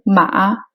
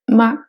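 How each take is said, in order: First: The syllable is said on a low pitch. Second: The syllable is said short and light, unstressed. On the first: "c'est le ton bas" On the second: "c'est le ton neutre"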